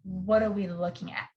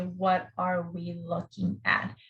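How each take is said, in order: First: The words are shortened and run together. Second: Each word is said fully and separately. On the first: The speaker calls it right. "in fast speech ... reduced or shortened" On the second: The speaker calls it wrong. "you will never hear people say"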